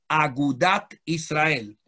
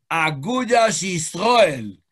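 First: The first word ends with a t sound. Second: The first word ends with an s sound. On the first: The speaker calls it wrong. "se llamó Agudat Israel" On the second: The speaker calls it right.

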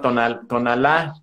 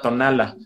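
First: The stress falls on the last syllable. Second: The stress falls on the second-to-last syllable. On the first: This is the current form of the name. "se llama" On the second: This is the original form of the name. "originalmente era"

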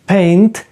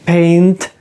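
Both takes have the same delivery.

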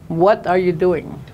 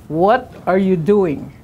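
Both takes have the same delivery.

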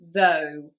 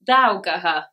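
First: It is one short syllable with silent letters. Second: Every letter is sounded out, giving extra syllables. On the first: The speaker calls it right. "as we know the pronunciation is though" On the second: The speaker calls it wrong. "if you were trying to say it phonetically"

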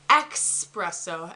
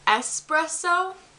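First: The word begins with an 'ex' sound. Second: The word begins with a plain 'es' sound. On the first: The speaker calls it wrong. "she says expresso" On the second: The speaker calls it right. "instead of saying espresso"

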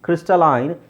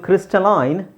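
First: The last syllable has the vowel of 'eye'. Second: The last syllable has the vowel of 'eye'.

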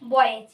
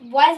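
First: The word ends with a buzzing z sound. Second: The word ends with a hissing s sound. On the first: The speaker calls it right. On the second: The speaker calls it wrong.

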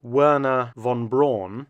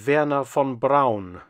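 First: The name is said with an American pronunciation. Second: The name is said with a German pronunciation. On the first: This is how most Americans say the name. "Most Americans call him" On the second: This is how the name is said in its original language. "his actual name in German is"

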